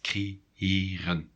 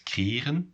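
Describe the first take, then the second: First: A short break separates the two e vowels. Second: The two e's run together as one vowel. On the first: The speaker calls it right. "You need to pause a little bit in between the two E's" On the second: The speaker calls it wrong. "without the two dots"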